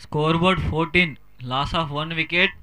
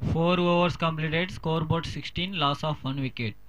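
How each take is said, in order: First: Very slow, drawn-out announcer read; slow scoreboard announcement. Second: Very slow, softer announcer read; slow scoreboard announcement. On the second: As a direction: announce the score slowly and softly. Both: Acted.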